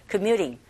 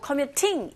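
First: "commuting" with the T flapped, sounding like an R: commyuring. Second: "commuting" with a crisp, fully pronounced T; clear T. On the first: Teacher demonstrating the flapped T to learners. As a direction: soften the T into a quick tap. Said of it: "플랩 현상". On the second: Teacher showing the clear-T version is also correct. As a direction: say the T clearly, no flap. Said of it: "틀린 발음은 아니라는". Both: Shown as a demonstration.

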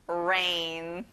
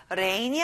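First: "rain" with a careful, well-formed English R; slow, exemplary R opening "rain"; clear R. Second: "rain" with a careless, weak R at the front; mispronounced R starting "rain"; wrong R in rain. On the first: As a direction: draw out "rain" from a proper initial R. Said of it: "앞에 R 발음을 잘 하셔야 돼요". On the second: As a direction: say "rain" with the R not properly formed. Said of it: "rain이 아니라 rain". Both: Shown as a demonstration.

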